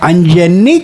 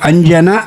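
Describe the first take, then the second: First: The name ends with a doubled 'nni' sound. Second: The name ends with a single 'na' sound. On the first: The speaker calls it wrong. "అంజన్ని కాదు" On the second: The speaker calls it right. "అంజన గుర్తుంచుకోండి"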